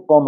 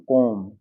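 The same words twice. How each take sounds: First: कॉम्ब with a final b sound. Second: कॉम्ब ending on m, no b; silent b. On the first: Teacher showing learners the unsilenced reading, b sounded in कॉम्ब. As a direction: pronounce the b closing कॉम्ब. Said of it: "अगर silent नहीं करते तो". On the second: Teacher giving learners the correct reading, silent b in कॉम्ब. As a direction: close the lips on m in कॉम्ब and stop. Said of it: "बी silent है". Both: Shown as a demonstration.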